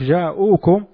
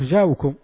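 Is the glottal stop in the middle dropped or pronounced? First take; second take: pronounced; dropped. First: A glottal stop is heard in the middle. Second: No glottal stop is heard in the middle. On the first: "بدل ما يقول لك جاءوكم" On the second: "يقول لك جاءوكم"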